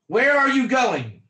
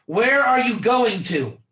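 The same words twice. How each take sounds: First: Said in the usual way. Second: Going to said focused, ending firmly on to; stress on to. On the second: Shown as a demonstration. Ticket clerk asking passenger, focused on to. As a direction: land the sentence on to. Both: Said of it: "Do you hear the".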